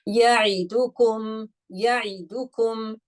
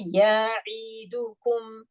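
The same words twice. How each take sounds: First: Ya'idukum slow, every short vowel the same length; careful recitation. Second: Ya'idukum very slow, vowels stretched too long; wrong drawn-out take. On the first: Teacher recites to class with even timings. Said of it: "Did you feel that I gave any extra time". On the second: Teacher shows class the wrong, stretched reading. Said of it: "No, that's wrong". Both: Shown as a demonstration.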